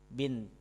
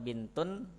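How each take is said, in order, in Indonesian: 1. Kata itu berakhir pada konsonan akhir yang mati. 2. Kata itu berakhir dengan bunyi -un tambahan.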